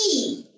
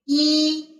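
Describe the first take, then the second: First: The pitch drops sharply all the way down. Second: The pitch stays high and level. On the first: A word of another tone follows it. "fourth tone... drop our sounds all the way down" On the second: It is just the number on its own. "we still keep it original as first tone"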